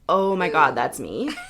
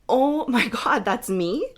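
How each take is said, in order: First: The voice sounds dismayed and let down. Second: The voice sounds delighted and amazed. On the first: The person is unhappy with how they look. "Not, ... the tone there, do you hear it?" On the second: The person is thrilled by how they look. "I want my clients to be like"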